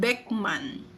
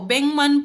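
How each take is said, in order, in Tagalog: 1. Nagtatapos sa tunog na k ang unang pantig. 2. Nagtatapos sa tunog na ng ang unang pantig. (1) "Hindi po" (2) "Magiging N G sound daw po siya"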